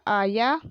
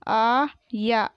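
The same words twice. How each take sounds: First: Said in the usual way. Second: आया split into long aa and yaa; very slow आया, syllables held apart; spelled out. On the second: Shown as a demonstration. Teacher sounding out आया for pupils, syllable by syllable. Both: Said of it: "मैंने इस तरीके से पढ़ा".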